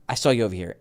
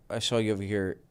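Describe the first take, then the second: First: It is said with lively, warm emotion. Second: It is said flatly, without emotion. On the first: The speaker calls it right. "I need to say this with more emotion" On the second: The speaker calls it wrong. "no emotion there"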